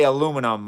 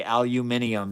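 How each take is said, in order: First: Aluminum said the American way, a-LOO-mi-num; four syllables in aluminum, stressed on LOO; American pronunciation. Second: Aluminium said the British way, al-yoo-MIN-ee-um; five syllables in aluminium, stressed on MIN; British pronunciation. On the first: Streamer tells chat his own word, American pronunciation of aluminum. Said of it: "I say aluminum". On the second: Streamer quotes what others say, British pronunciation of aluminium. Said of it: "a lot of people say aluminium". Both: Shown as a demonstration.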